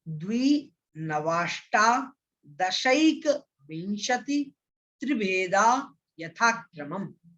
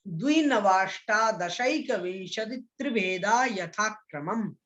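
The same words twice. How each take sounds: First: Very slow, syllable by syllable, each piece apart; broken-up recitation. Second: The whole sutra in one flowing, steady recitation; recited in one go. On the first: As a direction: split the sutra into slow chunks to teach it. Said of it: "इसका तोड़ तोड़ करके उच्चारण करेंगे". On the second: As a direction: chant it through without breaking. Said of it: "एक साथ मैं इसका उच्चारण कर रहा हूं". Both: Shown as a demonstration.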